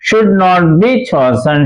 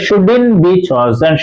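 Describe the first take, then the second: First: Should and not are said as separate words. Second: Should and not are merged into shouldn't. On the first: "ഷുഡിന് ശേഷം not വയ്ക്കുക" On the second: "short form"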